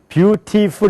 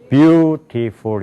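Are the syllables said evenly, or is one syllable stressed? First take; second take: even; stressed. First: All syllables are said with even weight. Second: One syllable is stressed over the others. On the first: This is how Koreans read it. The speaker calls it wrong. "우리는 beautiful 이렇게 읽잖아요" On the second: This is how Americans read it. The speaker calls it right. "beautiful 이렇게 읽는단 말이에요"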